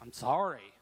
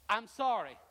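First: It sounds grudging and annoyed. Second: It sounds sincere and meant.

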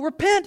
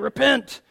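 First: It is said in a bright, joyful tone. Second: It is said in a gloomy, negative tone.

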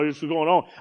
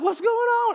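First: The voice is pitched low and deep. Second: The voice is at a lighter, normal pitch. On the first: Imitating his brother's way of talking. "Esau like" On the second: His own way of talking. "I'm like"

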